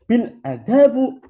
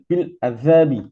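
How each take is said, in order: First: The word ends with a final u vowel. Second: The word ends with a final i vowel. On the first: The speaker calls it wrong. "tidak boleh dibaca" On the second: The speaker calls it right. "Yang benar adalah"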